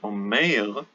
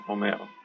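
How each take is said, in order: First: The second vowel sounds like 'ay' in snake. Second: The second vowel sounds like a short 'eh'. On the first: The speaker calls it wrong. "I wouldn't say omer" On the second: The speaker calls it right. "I would say omer"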